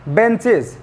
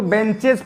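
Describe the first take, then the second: First: "बेंचेज" said "ben-chiz"; correct pronunciation. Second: "बेंचेज" ending in an open "-ej"; wrong pronunciation. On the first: Teacher modelling the plural for students, "बेंचेज" said "ben-chiz". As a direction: end "बेंचेज" on a short buzzed "-iz". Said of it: "तो pronunciation सही होना चाहिए". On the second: Teacher mimicking learners' misreading, "बेंचेज" said "ben-chej". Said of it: "बेंचेज नहीं होता ये". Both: Shown as a demonstration.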